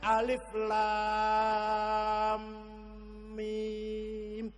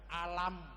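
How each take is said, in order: First: Each letter name is said separately in full. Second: The letters are blended into one short word. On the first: The speaker calls it right. "tapi bacanya alif lam mim" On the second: The speaker calls it wrong. "coba alif lam mim kita baca alam"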